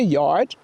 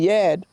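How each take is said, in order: First: The r sound is clearly pronounced. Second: The r sound is dropped. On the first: "we don't say yard, okay? That's Y A R D" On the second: "drop letters"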